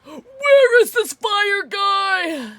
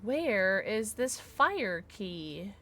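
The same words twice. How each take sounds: First: High, loud, drawn-out wail; frustrated wail. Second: Slow, softer, drawn-out question; slow searching question. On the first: Player searching in vain for the fire key, wailing loudly. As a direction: yell it slowly, stretching out each word. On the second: Player wondering aloud where the key is, slow and soft. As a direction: draw it out quietly, stretching every word. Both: Real, not acted.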